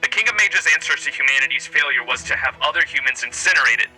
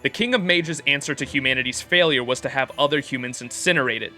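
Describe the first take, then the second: First: It is read in a put-on radio voice. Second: It is read in his normal speaking voice.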